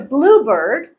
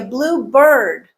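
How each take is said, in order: First: The stress falls on blue. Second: The stress falls on bird. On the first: It names a species of bird. "the stress is on the first part" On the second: It is any bird that happens to be blue. "blue as a descriptor of a generic bird"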